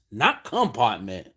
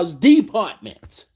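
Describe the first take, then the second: First: Compartment said the worker's way, as "compartment" in place of department, lower; mocking compartment; mocked mispronunciation. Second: Department said the correct way, as "department"; firmly stating department; correct pronunciation. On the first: Quoting the worker's mistake, mock compartment said lower. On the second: Shown as a demonstration. Correcting a Walmart worker, department said properly.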